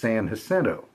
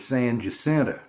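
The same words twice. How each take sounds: First: The name has a non-local English pronunciation. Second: The name has a local Texan pronunciation. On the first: This is how outsiders assume it is said. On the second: This is how locals say it.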